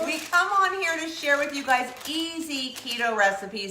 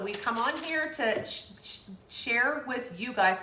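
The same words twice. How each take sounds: First: Said in the usual way. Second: Stumbling over words. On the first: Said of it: "that was hard to say". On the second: Real, not acted. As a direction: trip on the word share, sh- sh- share. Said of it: "God, that was hard to say".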